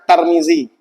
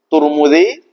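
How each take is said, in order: First: The first syllable has the vowel a. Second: The first syllable has the vowel u. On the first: "tidak boleh dibaca Tarmizi" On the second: "boleh dibaca dua"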